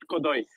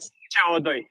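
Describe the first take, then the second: First: It is run together as a single word. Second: Each letter is named separately, then the number. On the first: It means something completely different. The speaker calls it wrong. "not codoi" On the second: It names the chemical formula for carbon dioxide. The speaker calls it right. "Normally you'd be spelling it out"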